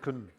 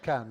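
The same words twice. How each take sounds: First: The word is unstressed with a weak vowel. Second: The word is stressed with a full vowel. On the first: "not the can" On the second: "This is the stressed can"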